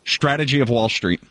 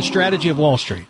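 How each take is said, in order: First: Slushy sh sound on the s in "Strategy" and "Street"; "Strategy of Wall Street" said with a lateral lisp on each s; lateralized S. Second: "Strategy of Wall Street" with clean, crisp s sounds; "Strategy" said with a normal s; plain. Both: Shown as a demonstration. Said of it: "Say it again".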